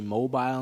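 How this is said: The word is said the British way. This is how people taught by the British say it. "They say mobile"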